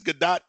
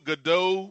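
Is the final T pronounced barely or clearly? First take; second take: clearly; barely. First: The final T is clearly pronounced. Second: The final T is barely pronounced. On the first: The speaker calls it right. "but it's Gadot" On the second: The speaker calls it wrong. "with no emphasis on the T"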